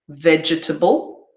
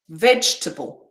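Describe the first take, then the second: First: It is said slowly with every vowel kept. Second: It is said quickly with a middle vowel dropped. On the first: "that's how I would pronounce these words slowly" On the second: "when I say these quickly, it'll sound like this"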